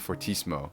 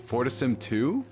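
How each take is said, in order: First: The name ends with an 'oh' sound. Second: The name ends with a separate 'two' sound. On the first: "I've been calling it Fortissimo" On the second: "Do you say Fortissim two"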